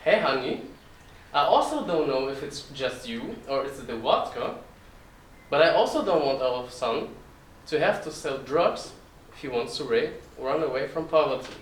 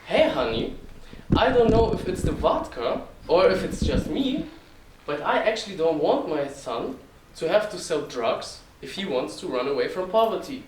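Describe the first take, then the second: First: Put-on Russian-accented mom replying, with swooping intonation; mother's Russian accent. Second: Put-on louder, Russian-accented dad voice, pitched up at first; father's heavy Russian accent. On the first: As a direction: echo the husband as a Russian-accented wife, less forceful. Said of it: "And then my mother replied". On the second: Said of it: "imagine it with a very heavy Russian accent".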